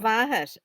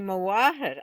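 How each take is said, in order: First: It is said with a Scottish Gaelic pronunciation. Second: It is said with an Irish Gaelic pronunciation. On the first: The speaker calls it wrong. "if I said Mavahet and that's my mother" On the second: The speaker calls it right. "and you say Mawahet"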